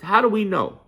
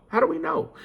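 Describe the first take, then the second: First: Said in the usual way. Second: How do we know? with know rising high; asking it back in a much higher voice; mock questioning. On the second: Echoing a doubter to viewers, high rising question.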